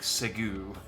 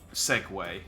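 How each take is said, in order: First: The word ends with a 'gyoo' sound. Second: The word ends with a 'way' sound. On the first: The speaker calls it wrong. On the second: The speaker calls it right.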